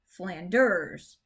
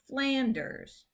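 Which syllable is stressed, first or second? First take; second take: second; first. First: The stress is on the second syllable. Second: The stress is on the first syllable. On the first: The speaker calls it wrong. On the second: The speaker calls it right. "So the stress is on that first syllable"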